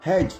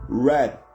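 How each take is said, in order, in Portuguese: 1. Ela é lida com um padrão de som português. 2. Ela é lida com um padrão de som inglês. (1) "qualquer brasileiro vai querer ler red" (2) "e não red"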